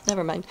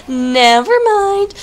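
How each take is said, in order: First: A quick, soft mumble to himself; muttered under breath. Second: Much higher and drawn out slowly; sing-song. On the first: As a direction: drop it away quietly. Caster corrects himself, muttering. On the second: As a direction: stretch it out like a singsong tune. Caster repeats correction, sing-song. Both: Real, not acted.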